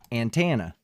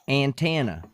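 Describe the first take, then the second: First: It is said in a plain, neutral accent. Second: It is said with an exaggerated country accent. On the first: "then say it normally" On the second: "over accentuate the countryness"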